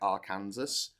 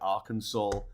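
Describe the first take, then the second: First: It ends with a 'Kansas' sound. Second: It ends with a 'saw' sound. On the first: "it just looks like Arkansas" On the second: "you got somewhere like Arkansas"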